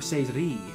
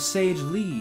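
First: The second word starts with a Japanese R. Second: The second word starts with an English L. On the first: "the Japanese, like, R sound is like a mix between an L and a D" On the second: "We have Sage Lee here"

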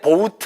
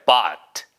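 First: The word sounds like boat. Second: The word does not sound like boat. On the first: The speaker calls it wrong. "절대 bought 아니에요 ... 그거 bought는 B-O-A-T" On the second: The speaker calls it right. "얘는 bought예요"

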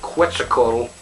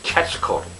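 First: It begins with a KW sound. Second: It begins with a hard K sound. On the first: The speaker calls it wrong. "a sound like it would in question" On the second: The speaker calls it right. "The QU in that word has a hard K sound"

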